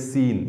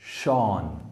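First: The name begins with an S sound. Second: The name begins with an SH sound. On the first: The speaker calls it wrong. "90% लोग कहेंगे सीन" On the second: The speaker calls it right. "इसको कहते हैं हम शॉन"

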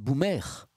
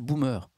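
First: The word ends with an open French 'ère' sound. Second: The word ends with an English-like 'er' sound. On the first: The speaker calls it right. "En fait, c'est boomer. B-O-U-M-E, accent grave, R-E" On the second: The speaker calls it wrong. "on le prononce très mal. On dit tous boomer"

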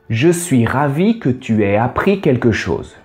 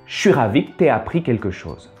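First: Every syllable is said clearly and fully. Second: Syllables are clipped and run together quickly.

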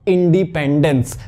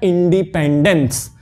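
Both takes have the same delivery.

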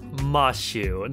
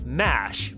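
First: The name ends with an added 'oo' vowel. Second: The name ends on the 'sh' consonant. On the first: The speaker calls it right. "that's Mashu" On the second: The speaker calls it wrong. "not Mash. Mash itches my soul"

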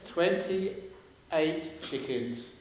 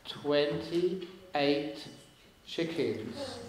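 First: The phrase is said at a normal pace. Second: The phrase is said slowly and deliberately.

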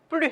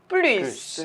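First: The word ends without an s sound. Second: The word ends with an s sound. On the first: There is no more of it. "부정일 때는 우리 뿌리 하고 발음한다고 했죠" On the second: There is more of it. "부정이 아니라 긍정이잖아요 더하기의 의미예요"

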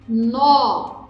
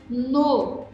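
First: The word is said with strong stress. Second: The word is said weakly, without stress. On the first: "Tônico" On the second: "átono"

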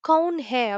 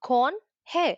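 First: The first word has an 'au' vowel. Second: The first word has a plain 'o' vowel. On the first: This follows the written spelling. The speaker calls it wrong. "கவுன் ஹே அப்படின்னு ஆனா சொல்ல வேண்டாம்" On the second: This is how people say it in everyday speech. The speaker calls it right. "ஆப் கோன் ஹே அப்படின்னு சொன்னாலே போதுமானது"

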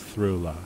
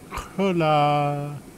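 First: It starts with a soft th sound. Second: It starts with a throaty, rasping h sound. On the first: "an alternate pronunciation of X that's as th" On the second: "It's kind of hard to say the ch at first"

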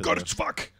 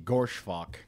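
First: The name is said in an angry, forceful tone. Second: The name is said in a calm, plain tone.

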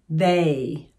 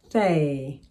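First: The opening th sound is buzzed with voice. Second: The opening th sound is breathy without voice. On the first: "now let's do it voiced" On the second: "And do the same with voiceless"

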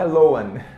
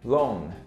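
First: The vowel is split into two sounds. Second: The vowel sounds like the one in lonely. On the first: The speaker calls it wrong. "Não é loan" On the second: The speaker calls it right. "A pronúncia correta é loan... Tipo de lonely"

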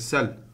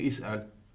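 First: It starts with s and has no glottal stop. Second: It has a vowel start and a glottal stop. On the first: The speaker calls it right. "Je moet zeggen sel. Omdat in het begin van de zin wordt de hamza weggehaald" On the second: The speaker calls it wrong. "Ik kan niet zeggen is'al. Is'al aan het begin van de zin is niet correct"

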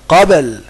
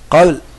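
First: The b is held and released with a bounce. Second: The b is barely heard and not released. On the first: The speaker calls it right. "لابد تسكن تبين كده" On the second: The speaker calls it wrong. "ما تقولش قابل قابل ما سمعت الباء"

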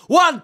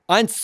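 First: The number is shouted from farther away. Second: The number is spoken somewhat louder. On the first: "weil ich jetzt mal so reinschreien werde" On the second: "dann mache ich es mal ein bisschen lauter"

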